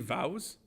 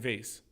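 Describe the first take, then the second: First: The word has a French-sounding vowel. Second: The word has a plain English vowel. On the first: This pronunciation sounds pretentious. The speaker calls it wrong. "I won't say vows" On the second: This is the ordinary everyday pronunciation. The speaker calls it right. "So I'll say vase"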